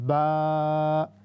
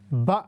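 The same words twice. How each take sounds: First: The vowel is stretched for three seconds. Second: The vowel is short and clipped. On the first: The speaker calls it right. "Three second stretch for three seconds" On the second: The speaker calls it wrong. "बा नहीं पढ़ना"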